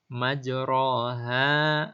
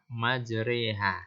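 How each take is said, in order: First: The vowel after r is a plain open a. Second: The vowel after r leans toward i.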